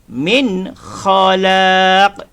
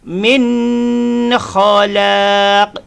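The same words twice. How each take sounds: First: The n sound is clear and distinct. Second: The n sound is nasalized and prolonged. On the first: The speaker calls it right. "yang betul" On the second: The speaker calls it wrong. "kalau kita baca dengung"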